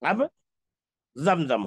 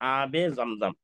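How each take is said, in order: First: The first vowel is short. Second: The first vowel is long. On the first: The speaker calls it wrong. "अलिफ पर मद नहीं लगाया, तो अब जमजम हो जाएगा" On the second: The speaker calls it right. "हमको लिखना है आबे जमजम"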